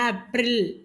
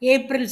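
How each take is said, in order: First: It starts with an 'ah' sound, ending 'reel'. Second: It starts with an 'ay' sound, ending 'rel'. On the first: This is the Hindi way of saying it. The speaker calls it right. "ஏப்ரலுக்கு ஆப்ரில்" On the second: This is the English way of saying it. The speaker calls it wrong. "ஏப்ரல் சொல்லக்கூடாது"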